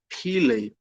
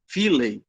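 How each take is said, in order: First: PHILEI begun with a p sound instead of f; philei, the ph pronounced as a p. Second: PHILEI begun with an f sound; philei, the ph pronounced as f. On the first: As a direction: say "philei" as PEE-lay. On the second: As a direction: say "philei" as FEE-lay, with f. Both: Shown as a demonstration. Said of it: "ou philei".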